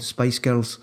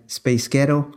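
First: Said in the usual way. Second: Scottish accent. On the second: Shown as a demonstration. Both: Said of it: "That's how you pronounce Spice Girls with a Scottish accent".

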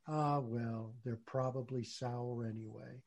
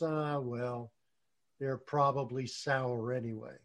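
First: Soft resigned shrug. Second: Resigned fox. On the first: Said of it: "And we suddenly say". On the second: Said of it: "looks at the grapes and says". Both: Retold or imitated.

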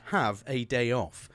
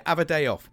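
First: "have a day off" slowly, word by word; slow, careful "have a day off", H pronounced; full pronunciation. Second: "Have a day off" run together, no H; loud, casual British shortening of "Have a day off"; dropped letters. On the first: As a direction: spell out "have a day off" with every letter sounded. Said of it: "means have a day off". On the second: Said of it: "removed a couple of letters". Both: Shown as a demonstration.

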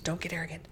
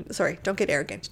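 First: "Don't get arrogant" muttered much softer under the breath; muttered to self. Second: Said in the usual way. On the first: Shown as a demonstration. Speaker reminding herself not to brag, soft mutter. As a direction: scold yourself under your breath.

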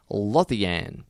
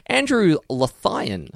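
First: Lothian said LOTH-ee-an; alternative pronunciation. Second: Lothian said luh-THIGH-un; alternative pronunciation. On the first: Host trying the surname another way, Lothian as LOTH-ee-an. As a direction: stress the first syllable of Lothian, ending ee-an. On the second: Host trying a listener's surname, Lothian as luh-THIGH-un. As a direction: stretch Lothian slowly, stressed on THIGH. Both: Shown as a demonstration. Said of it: "One of the two".

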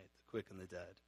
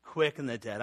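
First: Put-on much softer, relishing the old words "The quick and the dead"; savoring the phrase. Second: Said in the usual way. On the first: Shown as a demonstration. Pastor savoring the old creed wording for his flock, soft and relishing. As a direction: murmur "The quick and the dead" as if tasting each word. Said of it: "This sounds cool". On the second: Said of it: "I love the old translation".

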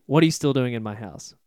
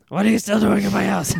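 First: Said in the usual way. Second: Higher, hammed-up old witch voice; put-on witch voice. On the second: Shown as a demonstration. Witch telling the grieving father to get out of her shack, in a higher put-on witch voice. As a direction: redo the line properly as the cranky witch.

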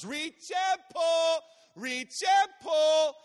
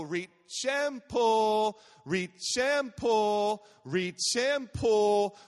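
First: High, drawn-out rhythmic yell; loud, high-pitched, slow chanted shout; top-of-lungs child shout. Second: REACH AND PULL chanted loud, each word drawn out; chanted, "Reach and pull" in a loud, stretched sing-song beat; rhythmic chant. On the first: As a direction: imitate a little girl belting out her swim chant. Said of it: "at the top of her lungs". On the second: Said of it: "she put a little rhythm to it". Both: Retold or imitated.

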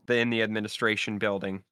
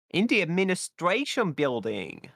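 First: Said in the usual way. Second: Terrifying silly voice. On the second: Pretend. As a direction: draw it out with exaggerated swoops in pitch. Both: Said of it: "That was terrifying".

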